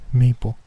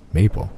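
First: Put-on "Maple" said high and timid by a scared girl; girl shyly introduces herself as Maple; jittery little girl. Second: Said in the usual way. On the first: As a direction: give the name "Maple" nervously, as a frightened child. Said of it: "she said in a jittery voice".

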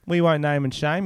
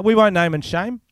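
First: Said in the usual way. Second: "won't" pushed up and louder, a mock solemn vow; emphatic vow. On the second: Shown as a demonstration. Promising listeners not to reveal the guest, mock solemn with "won't" punched. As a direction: declare "We won't name and shame" like a pledge, with "won't" hit hard and high.

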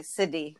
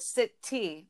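First: "city" as SID-ee; soft D for the T in "city"; low, casual "siddy" for "city". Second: "city" as SIT-TEE with a hard T; careful, crisp-T "city". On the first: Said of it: "with, like, a D". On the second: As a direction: sound out the T in "city". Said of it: "like, a D instead of city". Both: Shown as a demonstration.

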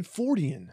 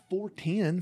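First: Fortean said as FOR-tee-an; correct pronunciation. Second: Mispronounced as four ten, like the number; wrong pronunciation. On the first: Correcting a cohost, saying Fortean the right way. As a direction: give Fortean three syllables, stress on the first. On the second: Correcting a cohost, mimicking his wrong four ten. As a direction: say four ten as two plain words. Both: Shown as a demonstration. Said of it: "Not four ten".

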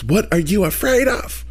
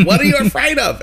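First: Lightly voiced Leslie Jordan impression. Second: Higher, sing-song Leslie Jordan impression. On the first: Retelling his therapist, mimicking him like Leslie Jordan. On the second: Retelling his therapist, a higher Leslie Jordan voice. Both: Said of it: "He sounded like Leslie Jordan".

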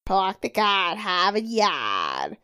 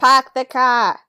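First: Put-on slow Boston accent, r dropped. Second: Put-on lightly done Boston accent, r dropped. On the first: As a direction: draw out "Park the car, have a yard" in Boston, no r. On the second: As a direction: say "Park the car" with a Boston broad a, no r. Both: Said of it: "gnarly Boston accent".

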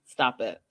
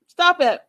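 First: Low-pitched first warning to stop. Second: High, loud stop it; sharp stop it. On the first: Telling someone to stop it, low and controlled. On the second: Repeating the order to stop it, high and loud. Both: Real, not acted. Same command repeated, escalating.

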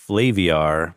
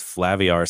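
First: Flaviar said with a long A, "FLAY-vee-ar"; long-A pronunciation. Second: Flaviar said with a short A, "FLAV-ee-ar"; short-A pronunciation. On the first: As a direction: say Flaviar starting like the word "flay". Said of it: "I wanna say Flaviar". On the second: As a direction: say Flaviar to rhyme with caviar. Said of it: "because Flaviar sounds so aggressive". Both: Shown as a demonstration.

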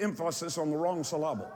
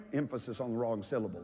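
First: "emphasis" and "syllable" stressed on the second syllable; misplaced stress. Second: Said in the usual way. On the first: Shown as a demonstration. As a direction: say em-PHA-sis and syl-LA-ble, comically wrong. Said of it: "get the emphasis on the wrong syllable". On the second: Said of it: "those of you that are slow of listening".

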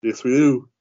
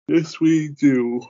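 First: Higher, louder playful agreement; emphatic agreement. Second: Very slow, high, stretched-out words; drawn-out agreement. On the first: Host agreeing with his co-host, emphatic and pitched up. Playful echo before signing off. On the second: Host winding up the show, agreeing in a long drawl. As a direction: draw each word out long and high. Repeats it drawn out before sign-off. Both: Real, not acted.

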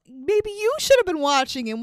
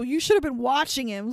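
First: "you" pushed up high to throw blame back; stress on YOU. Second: Said in the usual way. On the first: Retold or imitated. Host turns the blame back on him, indignant stress on "you". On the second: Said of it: "is just incessantly yelling at Jill, blaming her".

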